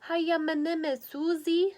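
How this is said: It is mumbled as if through toothpaste.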